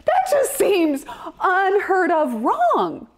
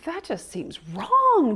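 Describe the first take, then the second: First: "That just seems unheard of wrong" slowed, higher and stretched; mock outrage, slow and high; drawn-out indignation. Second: Said in the usual way. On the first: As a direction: lean hard on unheard of. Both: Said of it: "I'm like".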